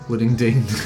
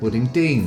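First: The stress is on the first part. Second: The stress is on Dean. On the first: The speaker did not grow up in Brighton. The speaker calls it right. "put the emphasis on the first bit" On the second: The speaker grew up in Brighton. The speaker calls it wrong. "put the emphasis on the Dean"

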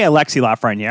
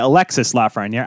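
First: The first name ends without an s sound. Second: The first name ends with an s sound. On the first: "I say Alexei Lafreniere" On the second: "I've heard people say Alexis Lafreniere"

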